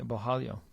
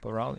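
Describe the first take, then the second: First: The middle consonant sounds like an h. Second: The middle consonant sounds like an English r. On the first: The speaker calls it right. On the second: The speaker calls it wrong.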